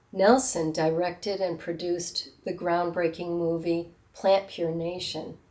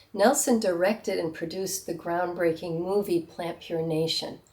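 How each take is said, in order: Both takes have the same delivery.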